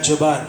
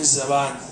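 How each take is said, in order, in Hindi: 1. शब्द की शुरुआत j की आवाज़ से होती है। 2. शब्द की शुरुआत z की आवाज़ से होती है। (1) "हिंदी में इसको बोलता है कोई तो बोलता है जबान, जीम से" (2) "उर्दू में हम ज़बान तंग के लिए बोलते हैं"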